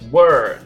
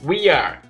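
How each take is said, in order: First: The two words merge into one syllable. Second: Both words are said fully and separately.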